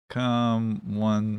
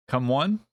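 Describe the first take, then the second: First: Said in the usual way. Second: "Come one?" with a rising, questioning tune; reading chat's "Come one" back as a puzzled question. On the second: Shown as a demonstration.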